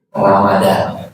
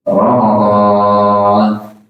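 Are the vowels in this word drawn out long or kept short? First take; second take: short; long. First: The vowels are kept short. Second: The vowels are drawn out long. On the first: This is the simplified Indonesian form. "masuk Indonesia jadi Ramadan" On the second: This is the original Arabic form. "dibacanya panjang ya"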